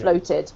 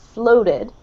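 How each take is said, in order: First: It is said with a British accent. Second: It is said with an American accent. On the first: "or I say it" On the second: "So with an American accent"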